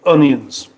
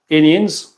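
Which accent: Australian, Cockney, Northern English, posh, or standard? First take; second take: standard; Australian. First: It is said in a plain standard British accent. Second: It is said in an Australian or New Zealand accent. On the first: "normal people say onions" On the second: "Australians and Kiwis"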